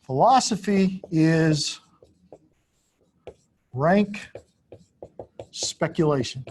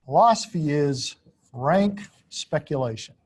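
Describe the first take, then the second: First: Philosophy is drawn out, then rank rising, with long pauses between; slow word by word. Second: Said again in one connected line, falling at the end; whole phrase restated. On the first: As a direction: read the claim out one word at a time with long pauses. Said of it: "announces misconception four". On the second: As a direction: restate the claim as one sentence. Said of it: "restates misconception four". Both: Shown as a demonstration.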